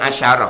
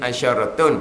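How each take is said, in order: First: The word ends with a short 'ah' ending. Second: The word ends with the full 'atun' ending. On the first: This is how it is read in the verse. "tapi baca asyarah lah" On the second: This is the word's full grammatical form. "dia dia asyaratun"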